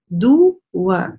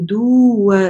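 First: The vowel before the w is kept short. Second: The vowel before the w is drawn out long. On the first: The speaker calls it right. "Нет, ду ва. То есть мы не тянем здесь" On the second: The speaker calls it wrong. "часто бывает ошибка"

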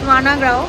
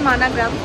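First: The word ends with an open 'ao' sound. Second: The word ends with a closing 'm' sound. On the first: This is how it is said in Hindi. "হিন্দিতে মানাগ্রাম গাঁও এরকমভাবে প্রনাউন্সিয়েশনটা হয়" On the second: This is how it is said in Bengali. "বাংলায় বলে মানাগ্রাম"

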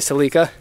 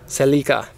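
First: It is said the Canadian way. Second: It is said the Japanese way.

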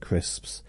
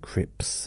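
First: The s sound before the p is pronounced. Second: The s sound before the p is dropped. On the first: The speaker calls it right. "instead of crisps" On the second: The speaker calls it wrong. "him saying crips"

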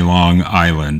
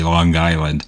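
First: It is said in a standard, non-local accent. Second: It is said in a local Long Island accent. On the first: This is not how locals say it. "they never say Long Island" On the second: This is how locals say it. "They say Long Island"

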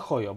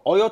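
First: The word begins with an audible h sound. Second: The word begins with a vowel, no h sound. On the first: The speaker calls it wrong. "Ojo czy Hojo?" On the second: The speaker calls it right. "Ojo czy Hojo?"

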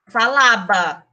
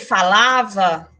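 First: The last syllable starts with a b sound. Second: The last syllable starts with a v sound. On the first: "eu vou falar falaba" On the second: "No lugar de eu dizer falava"

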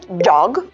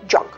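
First: The final consonant is voiced, like g. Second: The final consonant is voiceless, like k. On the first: The speaker calls it right. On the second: The speaker calls it wrong.

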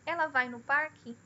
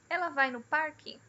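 First: The pitch stays flat without variation. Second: The pitch moves up and down. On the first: The speaker calls it wrong. "Não tem variação na altura de voz" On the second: The speaker calls it right. "A alteração na altura de voz"

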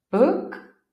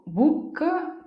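First: The vowel is very short and reduced. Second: The vowel is a long, full oo sound. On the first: The speaker calls it right. "qua il trucco sta nel ridurre al massimo il suono della vocale" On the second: The speaker calls it wrong. "nota come non dico book"

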